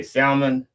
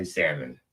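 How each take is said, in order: First: Salmon with a sounded L, pitched high; L pronounced. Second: Salmon as SAM-mon, falling; silent L. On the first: Shown as a demonstration. His word against his wife's, salmon with L sounded. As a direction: say salmon as SAL-mon, L heard. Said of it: "because I pronounced that L". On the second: Retold or imitated. Wife's word against his, salmon with silent L. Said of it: "my wife pronounced it".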